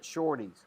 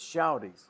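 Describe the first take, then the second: First: The first vowel sounds like 'or'. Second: The first vowel sounds like 'ow'. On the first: The speaker calls it wrong. "Carl keeps pronouncing it shorties" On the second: The speaker calls it right. "It's shouties"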